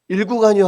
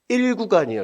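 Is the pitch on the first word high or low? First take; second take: low; high. First: The first word is said with a low, flat pitch. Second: The first word is said with a raised pitch. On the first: Seoul listeners cannot tell which fare zone is meant. The speaker calls it wrong. "일 구간이요 하면 절대 못 알아먹습니다" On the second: Seoul listeners understand which fare zone is meant. The speaker calls it right. "강세가 위 높여 높여줘야 됩니다"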